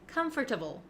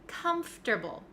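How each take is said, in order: First: The middle 'or' sound is fully pronounced. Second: The middle 'or' sound is dropped. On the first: The speaker calls it wrong. "a lot of my students like to say comfortable, comfortable. And that sounds a little bit clunky and not really correct" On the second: The speaker calls it right. "We say comfortable"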